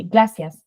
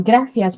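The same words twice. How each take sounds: First: "gracias" said as "glacias"; imitation accent "gracias", L in place of R. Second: Said in the usual way. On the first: Shown as a demonstration. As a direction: swap the R of "gracias" for an L. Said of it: "say everything with the L instead of with the R". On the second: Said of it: "So instead of saying".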